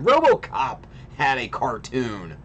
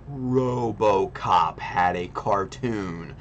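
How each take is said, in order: First: It is said at a normal speed. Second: It is said slowly and deliberately.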